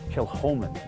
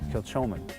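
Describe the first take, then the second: First: The middle consonant is a breathy H sound. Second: The middle consonant is not an H sound. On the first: The speaker calls it right. "The large H now will always remind me to say Kilchoman" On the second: The speaker calls it wrong. "as opposed to"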